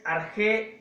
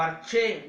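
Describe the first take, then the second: First: "arjé" with a rasping j as in Spanish "jota"; "arjé" pronounced with a Spanish j; Greek with a j sound. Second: "arché" with ch as in "chico"; "arché" pronounced with ch; Greek with a ch sound. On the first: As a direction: say "arjé" with a hard throat j. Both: Shown as a demonstration. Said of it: "depende de la pronunciación".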